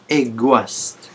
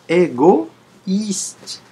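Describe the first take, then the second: First: The o and i merge into one 'wa' sound. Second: The o and i are said as two vowels. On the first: The speaker calls it wrong. "On ne l'a pas prononcé, prononcé égoïste. Ouah, ça n'a pas été prononcé ouah" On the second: The speaker calls it right. "on prononce bien le I"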